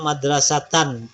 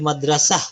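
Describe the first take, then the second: First: The word ends with an n sound. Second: The word ends with an h sound. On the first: "Misalnya madrasatan" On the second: "Kalau dia berhenti menjadi madrasah"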